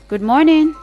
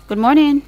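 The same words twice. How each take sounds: The two takes are said the same way.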